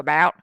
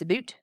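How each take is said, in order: First: It is said with a Southern US accent. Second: It is said with a Canadian accent. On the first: "In the South, we're going to go about" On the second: "and up there, it's about"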